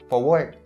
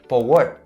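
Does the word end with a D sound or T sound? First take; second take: T sound; T sound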